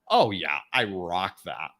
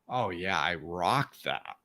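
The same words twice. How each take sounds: First: It sounds boastful and full of ego. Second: It sounds humble and reflective, without ego.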